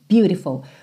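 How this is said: The word is pronounced with an American accent. "e sim beautiful"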